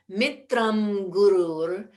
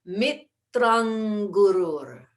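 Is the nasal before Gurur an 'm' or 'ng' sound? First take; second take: m; ng. First: The nasal before Gurur is a lip 'm' sound. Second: The nasal before Gurur is a throat 'ng' sound. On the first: "that nasal sound, the mm" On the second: "throw that back to the throat, mm, an N G sound"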